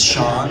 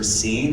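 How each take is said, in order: First: The name is said like shawn, with an aw vowel. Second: The name is said like the word seen. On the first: The speaker calls it right. "And I'm like, it's Sean" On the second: The speaker calls it wrong. "the waiter's like, so this order is for Scene?"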